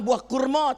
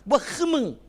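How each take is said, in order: First: It is said in a standard Malay accent. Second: It is said in a Terengganu dialect accent. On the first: A word the local listeners did not understand. "Tapi dia nampak buah kurma, tak faham" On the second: A word the local listeners would understand. "Orang Terengganu"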